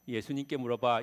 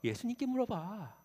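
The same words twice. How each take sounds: First: It is said flatly, without acting. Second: It is said expressively, with acting.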